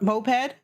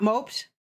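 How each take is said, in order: First: "moped" said "MO-ped", two syllables. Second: "moped" said as one syllable, "mopet". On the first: Streamer checking the vehicle word, "moped" as "mo-ped". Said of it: "they're spelt exactly". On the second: Streamer puzzling over English spelling, "moped" as one-syllable "mopt". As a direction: say "moped" like "moped around", rhyming with "roped". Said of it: "is it mope double P". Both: Shown as a demonstration.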